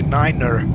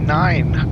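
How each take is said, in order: First: The word is said as two syllables. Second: The word is said as one syllable. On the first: The speaker calls it right. "we say niner" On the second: The speaker calls it wrong. "we don't say nine"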